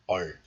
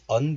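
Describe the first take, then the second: First: The syllable ends with an l sound. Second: The syllable ends with an n sound. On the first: The next l sound changes it. "this on becomes 얼, like this" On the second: This is the syllable on its own. "pronounced as on in isolation"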